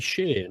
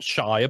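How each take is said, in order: First: Shire said short, shuh. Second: Shire said full, rhyming with fire; shire as in spelling. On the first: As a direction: say shire with a weak vowel like shuh. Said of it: "they don't pronounce it like that". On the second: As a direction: say shire like shy-er. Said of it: "not shire". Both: Shown as a demonstration.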